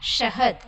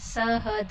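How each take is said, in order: First: The word begins with an 'sh' sound. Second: The word begins with a plain 's' sound. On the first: The speaker calls it right. "हम शहद कहते हैं" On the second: The speaker calls it wrong. "सहद नहीं"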